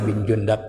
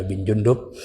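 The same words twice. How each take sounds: First: Jundab with an a in the last syllable; first name variant. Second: Jundub with an u in the last syllable; second name variant. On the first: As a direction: say Jundab, ending in "dab". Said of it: "ada bin Jundub". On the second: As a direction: say Jundub, ending in "dub". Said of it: "ada bilang Jundubin". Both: Shown as a demonstration.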